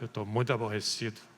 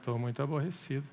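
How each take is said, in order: First: It is said in an irritated tone. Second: It is said in a sarcastic tone.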